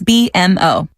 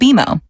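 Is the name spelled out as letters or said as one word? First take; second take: letters; one word. First: The name is spelled out letter by letter. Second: The name is said as one word. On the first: The speaker calls it wrong. "I bet you'll call us B M O" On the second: The speaker calls it right. "we actually pronounce it B M O"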